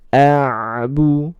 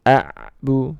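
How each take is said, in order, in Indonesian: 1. Bunyi ain hanya dialirkan sebentar. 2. Bunyi ain dipotong tiba-tiba. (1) "seperti itu ya" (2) "jangan sampai terhenti"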